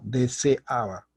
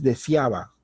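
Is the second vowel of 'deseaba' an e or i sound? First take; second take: e sound; i sound. First: The middle vowels keep a clear separate 'e'. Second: The middle vowels merge into an 'ia' glide. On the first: The speaker calls it right. "deben mantener fija la e" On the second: The speaker calls it wrong. "No es"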